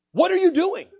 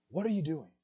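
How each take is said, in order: First: High, loud, insistent challenge; pressing question. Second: Soft, hushed question imitating God's whisper; small whisper. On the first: Retold or imitated. Preacher presses God's question on congregation. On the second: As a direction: ask it gently, well under full voice. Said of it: "he heard this small whisper".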